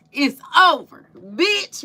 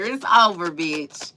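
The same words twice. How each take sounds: First: Higher and louder, quoting the movie line; mock yell. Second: Said in the usual way. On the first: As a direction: yell it like the Friday breakup line. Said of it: "And he was like". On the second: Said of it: "What you say".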